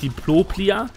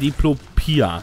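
First: An extra L sound follows the second P. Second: No L sound follows the second P. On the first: The speaker calls it wrong. "Nicht Diploplia" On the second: The speaker calls it right. "sondern Diplopia. Ohne das zweite L"

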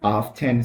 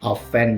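First: The t sound is clearly pronounced. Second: The t sound is silent. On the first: "บางคนออกเสียง often เสียงดังเลยนะครับ" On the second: "ไม่จำเป็นต้องเป็น often อย่างเดียว"

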